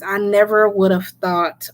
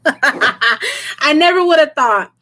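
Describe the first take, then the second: First: Said in the usual way. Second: Slow, laughing through emotion; emotional laugh. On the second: Real, not acted. Touched by nearing ten thousand subscribers, laughing emotionally. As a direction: laugh it out while choked up. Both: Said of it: "why am I getting emotional?".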